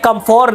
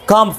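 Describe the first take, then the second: First: The first part is said in full as 'kumfor'. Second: The first part is said as a short 'kumf'. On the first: The speaker calls it wrong. "नहीं" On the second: The speaker calls it right. "सही"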